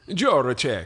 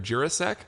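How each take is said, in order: First: The name ends with a 'check' sound. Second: The name ends with a 'sek' sound. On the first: "Check, okay. That's probably the correct pronunciation, or closer" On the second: "We'll say Jurasek"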